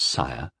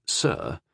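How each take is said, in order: First: "Sire" rhyming with "fire"; "Sire", sounded like "sigh-er"; Sire, the wrong title. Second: "Sir" as one short syllable; "Sir", rhyming with "fur"; Sir, correctly. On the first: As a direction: say "Sire" with a long gliding i. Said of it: "not 'Sire,'". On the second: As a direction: say "Sir" with the vowel of "her". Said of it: "be sure you say 'Sir,' not 'Sire,'". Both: A narrator's reading.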